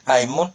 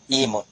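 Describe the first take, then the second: First: The word begins with an 'a' vowel. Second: The word begins with an 'i' vowel. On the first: "Ya baca patoh" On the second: "dengan kasrah"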